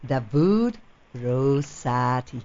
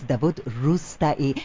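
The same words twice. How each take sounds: First: Slow, halting "Davud ... Rosati"; tentative mispronunciation. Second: Davud Rustai as "da-VOOD roos-ta-ee"; corrected pronunciation. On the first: Host attempting the guest's name, tentative mispronunciation. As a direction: try Rosati slowly, unsure of the sounds. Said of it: "Is this how we pronounce it well?". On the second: Host modelling the guest's name for everybody, corrected pronunciation. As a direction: say Rustai with "roos" and a separate final "ee". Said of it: "everybody repeats". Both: Shown as a demonstration.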